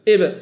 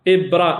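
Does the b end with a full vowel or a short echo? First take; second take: short echo; full vowel. First: The b ends with a short bouncing echo. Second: The b is followed by a full extra vowel. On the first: The speaker calls it right. "قلقله اضطراب" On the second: The speaker calls it wrong. "لا غلط"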